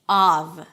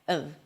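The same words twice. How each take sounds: First: The vowel is a full open 'ah'. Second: The vowel is a reduced 'uh' schwa. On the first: "When the word is stressed, the first vowel is the ah as in father" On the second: "when it's reduced ... the ah sound turns into a schwa"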